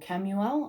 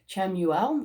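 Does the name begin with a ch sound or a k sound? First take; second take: k; ch. First: The name begins with a k sound. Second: The name begins with a ch sound. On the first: "or a k sound" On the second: "It's either a ch sound"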